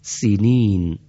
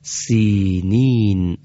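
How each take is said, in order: First: سینین said with a quick short first i; short kasra. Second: سینین with the first i stretched long and slow; long kasra. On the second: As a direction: hold the first vowel of سینین. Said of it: "اونجا گفتیم چی؟". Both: Shown as a demonstration.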